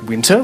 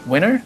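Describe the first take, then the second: First: The middle T sound is clearly pronounced. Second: The middle T sound is dropped. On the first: "pronounced like winter with that T sound" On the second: "rather than the more classic American winner"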